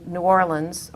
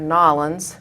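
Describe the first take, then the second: First: The name is said in a standard accent. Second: The name is said like New Orleans locals.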